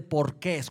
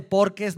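First: "porqués" stressed on the last syllable, QUÉS; stress on final E. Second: "porques" stressed on POR; stress on first syllable. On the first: Preacher ruling out the other word, "porqués" stressed on QUÉS. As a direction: land the accent on the E of "porqués". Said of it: "con acento en la E". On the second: Preacher clarifying which word he means, "porques" stressed on POR. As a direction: say "porques" with the accent up front, on POR. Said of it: "cuando hablo de porques, no estoy hablando de porqués con acento". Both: Shown as a demonstration.

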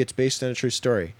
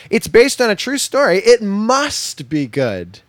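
First: Said in the usual way. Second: High, loud, over-eager mimicry; hammed-up naive conviction, pitched way up; mock excitement. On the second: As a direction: gush it like a gullible fan, drawing out the ending. Mimics people's gullible reaction to taglines.

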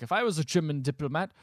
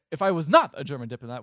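First: Said in the usual way. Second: "not" punched louder to correct it; stress on NOT. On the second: Retold or imitated. Recapper correcting the German diplomat line, "not" firmly stressed. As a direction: hit the word "not" hard.

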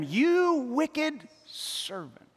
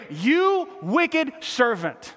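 First: Very slow, softer, grave rebuke; stern master. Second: Very slow, stretched verdict; preacher repeating the feared rebuke; dreaded verdict. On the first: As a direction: pronounce judgment slowly. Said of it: "his master summoned him and said". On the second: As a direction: drag out each word as a warning. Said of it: "I don't wanna hear". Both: Acted.

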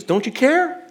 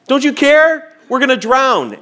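First: Higher, rising panicked question; panicked plea. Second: Higher and louder desperate cry; frantic plea. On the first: Disciples waking Jesus in the storm, higher panicked plea. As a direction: plead in fear over the storm. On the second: Disciples begging Jesus as the boat floods, louder frantic cry. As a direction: cry out like you're sinking. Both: Retold or imitated.

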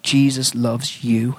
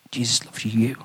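First: Said in the usual way. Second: "you" underlined, softly leaned on with a rise; stress on you. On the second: Shown as a demonstration. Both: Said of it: "and I underline it".

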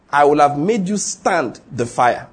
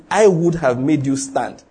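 First: Said in the usual way. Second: "I" hit hardest, the rest slow and even; slow, with the weight on "I"; stress on I. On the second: Shown as a demonstration. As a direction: lean on "I" in "I would have made you stand". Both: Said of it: "Emphasis is".

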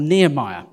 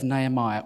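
First: Nehemiah said with NEE at the start; alternative pronunciation. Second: Nehemiah said with NAY at the start; alternative pronunciation. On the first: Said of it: "I'm not sure what it is". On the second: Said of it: "I'm gonna go with Nehemiah 'cause I'm not sure". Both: Shown as a demonstration.

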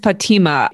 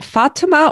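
First: "Fatima" said fa-TEE-ma; "Fatima" with a long, stressed TEE; stress on second syllable. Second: "Fatima" said FA-ti-ma; "Fatima" with a stressed FA and light ending; stress on first syllable. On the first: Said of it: "what's the emphasis? It's on the second syllable?". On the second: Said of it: "what's the emphasis?". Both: Shown as a demonstration.

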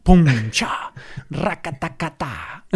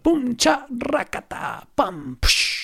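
First: Mouth-made punch and gunfire sounds; vocal sound effects of a fight. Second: Much higher mouth-made punches and rattle; fight sound effects. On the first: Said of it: "este sonido lo incluimos". (efectos de sonido con la boca) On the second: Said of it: "puedes repetir de nuevo cómo es el sonido". (efectos de pelea más agudos) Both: Shown as a demonstration.

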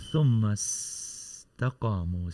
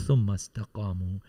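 First: ثم استقاموا with a long hissed S in استقاموا; drawn-out S. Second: Said in the usual way. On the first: Shown as a demonstration. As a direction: let the S of استقاموا slip out and linger. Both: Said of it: "Let the simple slip of the tongue come out".

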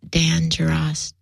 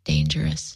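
First: "Dan Geras" said slowly as two separate words, first name then surname. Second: "dangerous" run together as one word, said softly; pun reveal. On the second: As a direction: let "dangerous" land as one quiet word. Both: Shown as a demonstration. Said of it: "but get it?".

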